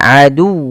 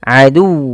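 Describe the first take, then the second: The two takes are said the same way.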